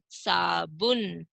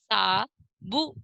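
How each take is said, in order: First: Said in the usual way. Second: साबुन stretched slowly; slow first take. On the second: Shown as a demonstration. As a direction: sound out साबुन. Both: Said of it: "इनको हम पढ़ेंगे।".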